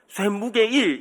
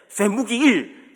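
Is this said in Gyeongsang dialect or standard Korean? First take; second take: standard; Gyeongsang. First: It is said in standard Korean, ending with 'ge'. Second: It is said in Gyeongsang dialect, ending with 'gi'. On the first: The speaker calls it right. "이렇게 얘기를 해야 되는데" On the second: The speaker calls it wrong. "경상도 할아버지가 발음하니까"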